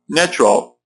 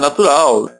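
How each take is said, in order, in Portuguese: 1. É pronunciada com vogais e sons ingleses. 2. É pronunciada com vogais e sons portugueses. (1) "O normal seria o quê?" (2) "cuidado para não falar né"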